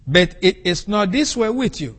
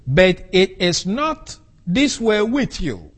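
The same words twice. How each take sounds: First: Said in the usual way. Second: "this" stressed, slow and deliberate; careful slow quote, emphasis on "this"; slow quoted rendering. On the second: Shown as a demonstration. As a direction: read the translation slowly, weight on "this". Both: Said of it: "they render the Greek text as like this".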